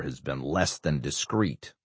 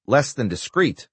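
First: Said in the usual way. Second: "Less than discreet?" raised high in disbelief; incredulous. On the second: Acted. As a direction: echo it back, rising and stunned. Senator repeats incredulously.

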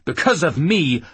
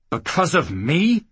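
First: Loud, falling, hammered ME; angry retort. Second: Incredulous rising question through gritted teeth; through clenched teeth. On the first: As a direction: throw it back at her. Man throws her words back. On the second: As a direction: grit your teeth and ask it. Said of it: "Jackal repeated through clenched teeth". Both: Acted.

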